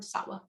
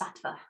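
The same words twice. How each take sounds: First: The middle consonant sounds like a W. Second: The middle consonant sounds like a V.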